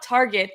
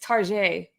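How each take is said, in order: First: It is said with a plain English pronunciation. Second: It is said with a fancy French-style pronunciation. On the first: It is an ordinary, everyday store. "it's not Target" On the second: It is a classy, upscale store. "doesn't it sound nice?"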